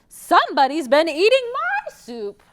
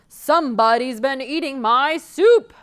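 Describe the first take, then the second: First: It is said in a high shrill voice. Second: It is said in a loud booming voice.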